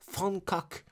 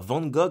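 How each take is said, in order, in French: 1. Le nom est prononcé avec des sons néerlandais. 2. Le nom est prononcé avec des sons français. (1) "en hollandais, ... mais Van Gogh" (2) "on ne dit pas Van Gogh"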